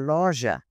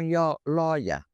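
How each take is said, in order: First: The word is said in standard Portuguese. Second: The word's first sound is changed, Dutch-accented. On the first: This is the correct Portuguese form. The speaker calls it right. "em vez de loja" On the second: This is how Dutch immigrants said it. The speaker calls it wrong.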